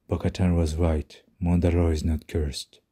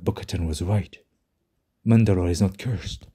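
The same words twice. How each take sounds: First: It is said flatly, with little intonation. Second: It is said theatrically, with exaggerated intonation. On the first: The speaker calls it wrong. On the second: The speaker calls it right.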